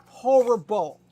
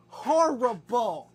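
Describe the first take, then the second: First: "horrible" hit loud and higher; loud teasing horrible. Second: "Horrible" stretched out very slowly; drawn-out horrible. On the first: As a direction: punch out "horrible" as a mock scold. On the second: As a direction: drag "Horrible" out slowly like a tease. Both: Real, not acted. Teasing the dog.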